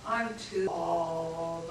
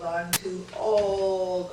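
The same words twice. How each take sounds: First: Slow self-pity. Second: Slow and louder, dragging each word; a mock moan about age; louder whiny self-talk. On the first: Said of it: "repeated self-talk". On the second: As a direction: sigh it out like you're fed up. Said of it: "repeated louder". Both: Shown as a demonstration.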